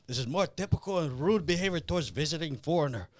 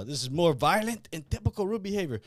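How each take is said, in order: First: Imitating a stiff Russian villain in a Russian accent; Russian accent, quoting the movie. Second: Higher mock Russian villain in a Russian accent; Russian accent, second try. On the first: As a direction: put on Drago's Russian-accented menace. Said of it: "Comrade Big Mouth, uh, starts saying". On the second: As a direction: retake the stiff Russian-accented line. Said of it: "what does he say?".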